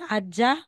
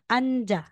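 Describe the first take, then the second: First: The middle consonant sounds like a d. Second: The middle consonant sounds like an n. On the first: The speaker calls it wrong. "hindi mo sasabing" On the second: The speaker calls it right.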